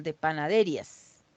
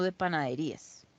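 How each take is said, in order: First: Panaderías said as pa-na-DE-rias, ignoring the accent mark; mock mispronunciation. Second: Said in the usual way. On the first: Shown as a demonstration. Teacher jokes about missing tildes in panaderías, deliberately misplaced stress on DE. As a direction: shift the stress in panaderías to DE, running ria together. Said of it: "no de panaderías". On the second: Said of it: "perdón, de panaderías".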